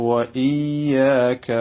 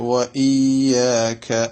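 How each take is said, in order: No difference in how they are said.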